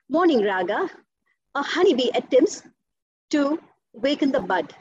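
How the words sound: It is said with breaths taken between phrases.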